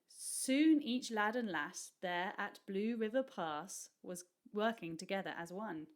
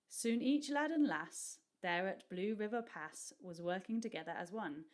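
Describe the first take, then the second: First: It is read with a British accent. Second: It is read with an American accent. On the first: It is the reader's own everyday way. "But if I said it, I would say" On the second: It keeps the rhyme of the verse. "it's supposed to be said in an American accent or one like Shirley's"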